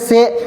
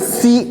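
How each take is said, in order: First: The vowel sounds like 'ay', as in 'se'. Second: The vowel sounds like 'ee', as in 'si'. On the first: The speaker calls it wrong. "ऐसा पढ़ते थे। तो इस तरह नहीं पढ़ना है" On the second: The speaker calls it right. "ज़ेर को मारूफ पढ़ेंगे"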